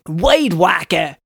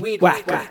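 First: It is said in an attempted Cajun accent. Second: It is said in his plain accent.

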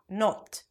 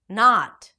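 First: The vowel is a rounded oh. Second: The vowel is an open back ah. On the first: The speaker calls it wrong. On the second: The speaker calls it right.

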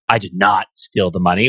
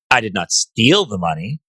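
First: The stress falls on the word 'not'. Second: The stress falls on the word 'steal'. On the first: The speaker indignantly denies taking it. "which is like indignation, right? No denial" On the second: The speaker took it but only borrowed it. "I might have borrowed it for a little while"

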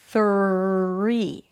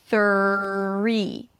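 No difference in how they are said.

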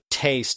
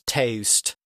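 First: The vowel is plain and of ordinary length. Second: The vowel is long with an added u-like glide. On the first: "instead of taste" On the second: "an A sound is pronounced like there's a U on the end"

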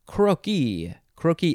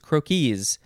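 First: It is pronounced as the singular form. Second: It is pronounced as the plural form. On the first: It refers to one sketch. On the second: It refers to several sketches.

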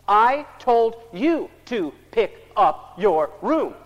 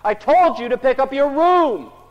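First: The sentence is said slowly, each word separated. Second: The sentence is said at a raised, loud volume. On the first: The speaker talks as if the child cannot follow words that run together. "So we get clever. ... Like he's having problems with words running together" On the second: The speaker tries to force the point by being louder. "so we say it louder"

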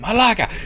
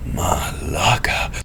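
First: It sounds angry and annoyed. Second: It sounds amazed, like seeing a giant.

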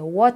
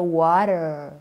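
First: It is said with a non-American accent. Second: It is said with an American accent. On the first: The speaker calls it wrong. "You don't say" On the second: The speaker calls it right. "I say"

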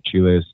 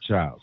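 First: The name is said with a Spanish-style pronunciation. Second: The name is said with an American English pronunciation. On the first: "in Africa or South America or Jamaica, we will pronounce it Chiles" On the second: "here in the good old USA, you would say Chiles"

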